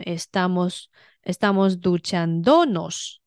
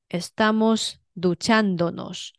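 First: The stress is on the third syllable. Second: The stress is on the second syllable. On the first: The speaker calls it wrong. "如果你不标重音符号，它就会念成" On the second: The speaker calls it right. "但是注意要标重音符号"

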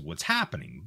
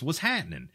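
First: The phrase is said clearly with every sound. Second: The phrase is run together with sounds dropped.

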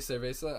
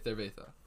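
First: The z is said as a plain s sound. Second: The z is said as a lisped th sound.

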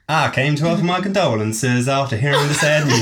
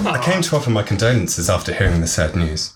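First: It is read in a put-on American accent. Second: It is read in the speaker's normal accent. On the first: "What's happened to the accent? ... She's gone a bit northern" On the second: "I'm just going to read it again in a normal accent"

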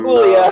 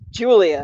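First: The name starts with a breathy H sound. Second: The name starts with an English J sound. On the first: The speaker calls it wrong. "I said Javier and Hoo-Lia" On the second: The speaker calls it right. "whoops, Julia"

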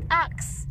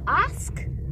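First: The k sound comes before the s sound. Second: The s sound comes before the k sound. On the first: The speaker calls it wrong. "говорят ax" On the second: The speaker calls it right. "вместо ask"

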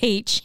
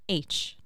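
First: The letter name begins with an h sound. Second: The letter name begins with a vowel sound. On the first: This is the Australian way of saying it. "they say H here in Australia. I hate saying it that way" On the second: This is the American way of saying it. "But in America, it's just H"

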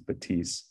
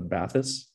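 First: The name is read with French pronunciation. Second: The name is read with English pronunciation. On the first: The speaker calls it right. "the French pronunciation is Batisse" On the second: The speaker calls it wrong. "a lot of North Americans are going to just read the spelling and think it's the Bathys"

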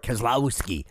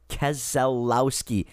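First: The name is slurred into three syllables. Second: The name is said with all four syllables. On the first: The speaker calls it wrong. "They all slur Keselowski" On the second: The speaker calls it right. "It's four syllables, gang, not three"

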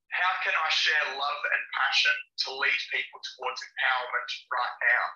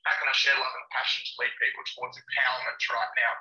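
First: It is said slowly and deliberately. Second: It is said at a normal pace.

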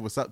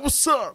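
First: It is said in a plain, calm way. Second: It is said with lots of energy.

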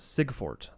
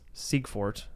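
First: The first syllable has no 'ee' vowel. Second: The first syllable has an 'ee' vowel. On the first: The speaker calls it wrong. "everybody says Siegfort. Like there's no E" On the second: The speaker calls it right. "IE is supposed to make the E sound"

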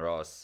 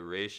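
First: The name is given its Arabic pronunciation. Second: The name is given its Hebrew pronunciation. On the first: "the Ra's is the Arabic pronunciation" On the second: "The Ra's is the Hebrew"

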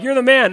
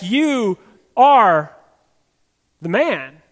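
First: It sounds like casual, admiring praise. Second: It sounds like a serious, pointed accusation.

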